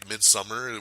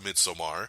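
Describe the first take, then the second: First: It sounds like the English word midsummer. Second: It does not sound like English midsummer. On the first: The speaker calls it wrong. "a lot of people are pronouncing as Midsummer because that's the way it kind of reads out" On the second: The speaker calls it right. "the director himself has said the movie is technically pronounced Midsommar"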